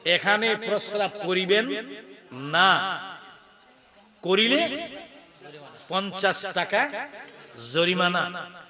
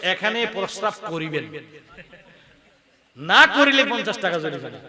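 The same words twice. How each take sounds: First: The pause comes right after 'na'. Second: The pause comes right before 'na'.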